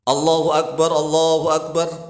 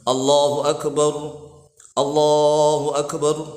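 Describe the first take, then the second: First: The phrases run on without a breath. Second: A breath pause separates the two phrases. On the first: The speaker calls it wrong. "Roknya disukun tetapi bacanya tidak nafas. Lanjut" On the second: The speaker calls it right. "Tarik nafas dulu baru Allahu Akbar"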